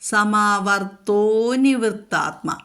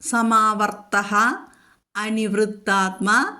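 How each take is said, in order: First: The two words are joined with an o sound. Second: The two words are said separately, ending in -ah.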